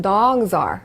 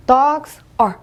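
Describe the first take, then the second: First: "dogs are" lower, run together as dog-zar; linked words. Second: "Dogs are" split with a clear gap; separate words. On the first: Teacher shows how English really says it, linked words. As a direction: join "dogs are" as one word. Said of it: "영어로는". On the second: Teacher shows they are two different words, separate words. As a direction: say "Dogs", stop, then "are". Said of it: "각각 다른 단어지만". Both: Shown as a demonstration.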